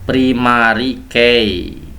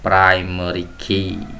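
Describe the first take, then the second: First: It is read letter by letter, as spelled. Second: It is said with English pronunciation. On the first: The speaker calls it wrong. "Anak-anak biasanya sering membacanya seperti itu" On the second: The speaker calls it right. "yang benar primary key"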